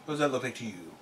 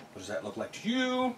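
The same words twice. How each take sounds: First: Said in the usual way. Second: High insinuating question. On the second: Real, not acted. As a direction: rise high with a knowing tease. Suggestive pink accessory joke.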